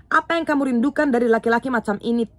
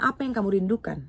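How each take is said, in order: First: Louder with APA punched, disbelieving at such a man; a louder, stunned repeat of the question with Apa stressed; incredulous emphasis. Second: Said in the usual way. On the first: Acted. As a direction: hit Apa hard, as if you cannot believe it.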